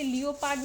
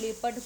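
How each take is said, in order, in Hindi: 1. इसे तीन अक्षरों में बोला जाता है: lee-oh-pard। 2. इसे दो अक्षरों में बोला जाता है: lep-ard। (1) "इसे लियोपार्ड नहीं" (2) "लेपर्ड करते हैं"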